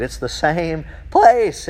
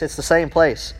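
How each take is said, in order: First: Slow, deliberate emphasis on the point; emphatic. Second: Said in the usual way. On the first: Real, not acted. Preacher to congregation, slow emphatic insistence. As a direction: lean on each word slowly. I'm just ecstatic here.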